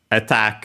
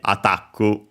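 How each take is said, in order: First: The word ends on the k consonant. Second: An extra u vowel follows the final k.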